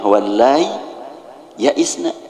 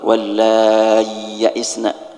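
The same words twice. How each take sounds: First: The two y sounds are kept separate. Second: The two y sounds merge into one long y. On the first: "Ya-nya sakinah wallahi ya isna, izhar" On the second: "Kalau idgham"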